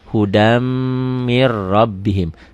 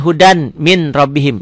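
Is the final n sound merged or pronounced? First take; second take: merged; pronounced. First: Each n merges into the following consonant sound. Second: Each n is pronounced clearly before the next word. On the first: This is how it is recited. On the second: This is how it is written.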